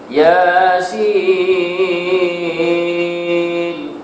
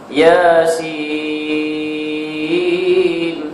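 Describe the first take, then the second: Both takes have the same delivery.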